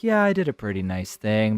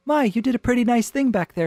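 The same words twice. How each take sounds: First: Lower, offhand man's voice; casual male reply. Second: High, quick, prim compliment; polite small talk. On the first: Man answering her compliment in the car, low and casual. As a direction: drop the pitch and shrug it off. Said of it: "And he's like". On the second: Woman complimenting the man she secretly flirts with, lightly innocent. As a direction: lift it high as an innocent remark. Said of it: "nothing on the surface going on here". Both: Acted.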